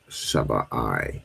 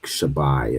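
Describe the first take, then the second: First: The final 'i' is said as a separate syllable. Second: The final 'i' is joined into the previous syllable. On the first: It is the verb meaning to swear an oath. "the I is separate" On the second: It is the word meaning seven. "as opposed to joining it, like Shabai is in seven"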